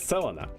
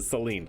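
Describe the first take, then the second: First: The name ends with a final 'uh' vowel. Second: The name ends without a final 'uh' vowel. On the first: The speaker calls it right. "but it's Selena" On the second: The speaker calls it wrong. "I always pronounce it Selene"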